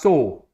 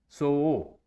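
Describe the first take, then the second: First: The word is said quickly as one merged syllable. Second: The word is split into two distinct vowel beats. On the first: "we say very fast so" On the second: "write this O after it"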